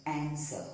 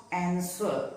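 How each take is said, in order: First: "answer" with silent W, like an-ser; correct pronunciation. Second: "answer" with the W sounded, like an-swer; wrong pronunciation. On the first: Teacher showing learners the correct way, "answer" with W silent. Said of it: "it is pronounced as answer". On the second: Teacher showing learners the mistake, "answer" with W voiced. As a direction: say "answer" with an audible W after the S. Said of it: "It is not answer". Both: Shown as a demonstration.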